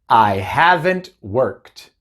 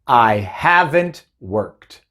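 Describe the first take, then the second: No difference in how they are said.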